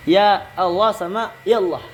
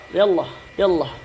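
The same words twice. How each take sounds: First: Said in the usual way. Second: Quick native Arabic "ya Allah, ya Allah". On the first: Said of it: "itu beda ya". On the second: Shown as a demonstration.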